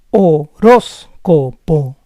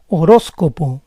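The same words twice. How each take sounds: First: Horóscopo split as ho-RÓS-co-po; syllable by syllable. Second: Said in the usual way. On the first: Shown as a demonstration. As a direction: say Horóscopo in parts, stressing RÓS. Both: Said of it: "try to understand the rules".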